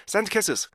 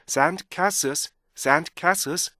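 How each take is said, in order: First: SAND CASES rushed, ending rhythm dropped; "sand cases" short and even, no held sounds; Korean learner's mistake. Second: SAND CASES stretched, each word keeping its beats; "sand cases" as saand kaa-sulz; correct full rhythm. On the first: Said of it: "우리나라 사람들이 이런 걸 잘 못해요". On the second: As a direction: hold the vowels and endings of "sand cases". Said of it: "이렇게 읽어주셔야 돼요". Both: Shown as a demonstration.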